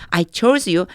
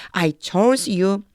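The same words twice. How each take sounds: First: Said in the usual way. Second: I chose you drawn out very slowly, rising on chose; teacher models the line word by word for students; slow model reading. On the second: Shown as a demonstration. Teacher reading the English verse aloud to the class, very slow and rising. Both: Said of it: "이건 chose라 이렇게 발음돼요".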